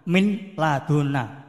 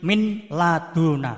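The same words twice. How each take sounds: Both takes have the same delivery.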